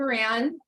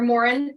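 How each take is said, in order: First: It is said unlike the word moron. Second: It is said close to the word moron. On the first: This is the changed, everyday form of the name. "my husband changed the pronunciation" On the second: This is the original Irish form of the name. "which is technically correct"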